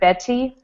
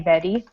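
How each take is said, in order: First: The middle consonant is a clear T sound. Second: The middle consonant sounds like a D. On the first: "instead of Betty" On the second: "it's like a D sound"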